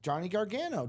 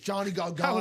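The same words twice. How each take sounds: First: The name is said in a natural voice. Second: The name is said in an imitated voice.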